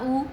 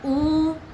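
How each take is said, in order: First: The vowel is held for two beats. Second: The vowel is held beyond two beats. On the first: "बड़ा ऊ दीर्घ दो मात्रा" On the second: "प्लुत दो मात्रा से ज़्यादा"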